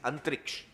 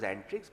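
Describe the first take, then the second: First: The name ends with a ksh sound. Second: The name ends with a plain ks sound. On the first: This is the original form of the word. "but it actually is Antriksh" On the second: This is how everyone commonly says it now. "which we now pronounce as Antrix"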